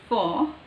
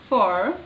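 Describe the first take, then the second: First: It is said in a British accent, without r. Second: It is said in an American accent, with r. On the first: "But in British it is o" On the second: "they use this sound everywhere"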